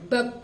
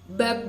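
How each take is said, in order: First: The final consonant is swallowed and unclear. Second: The final consonant is clearly audible. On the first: The speaker calls it wrong. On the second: The speaker calls it right.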